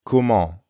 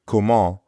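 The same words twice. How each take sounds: First: Comment said kʰomɑ with a nasal en; nasal ending. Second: Comment said kʰomɑ, nasal ending, no final t; French comment. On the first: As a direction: end Comment on the nasal sound. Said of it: "Comment ends in the nasal sound, en". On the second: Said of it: "The first word, comment, means how". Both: Shown as a demonstration.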